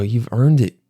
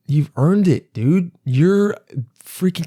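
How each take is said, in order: First: Said in the usual way. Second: Hyped-up praise. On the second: Retold or imitated. Comedian hyping up the bus driver, excited praise. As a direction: voice jumping higher, pumped and cheering. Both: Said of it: "'cause I go".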